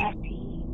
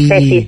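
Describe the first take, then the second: First: It is said in a soft, eerie voice. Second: It is said in a plain, normal voice.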